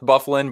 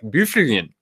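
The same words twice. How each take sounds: First: It is said the plain English way. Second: It is said the slurred Norwegian way. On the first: "Dustin Bufflin's name is pronounced Bufflin" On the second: "in the Norwegian tongue, I believe it'd be something like Bufflin. So it would be very slurred"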